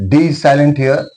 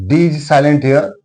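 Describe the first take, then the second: Both takes have the same delivery.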